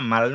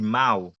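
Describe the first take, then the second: First: The word ends with a clear L sound. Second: The word ends with a W sound. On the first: The speaker calls it wrong. "e pa mal non mdi" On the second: The speaker calls it right. "mwen di mau, paske el nan prononse kom W"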